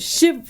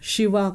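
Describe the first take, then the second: First: The name ends on the consonant v. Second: The name ends with a final vowel. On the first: The speaker calls it wrong. "असं करू नका" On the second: The speaker calls it right. "करा"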